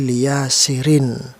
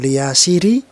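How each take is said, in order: First: The word ends in an in sound. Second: The word ends in a bare i sound. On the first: The speaker calls it right. "kasroh tanwinnya harus terdengar" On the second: The speaker calls it wrong. "bukan liyasiri"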